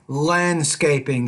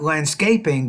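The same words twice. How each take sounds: First: The stress is on the first syllable. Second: The stress is not on the first syllable. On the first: The speaker calls it right. "so put more stress land" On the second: The speaker calls it wrong. "not landscaping"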